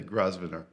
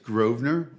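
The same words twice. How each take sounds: First: The S in the middle is pronounced. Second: The S in the middle is silent. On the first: The speaker calls it wrong. "and they'll not, and they'll say" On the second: The speaker calls it right. "silent S"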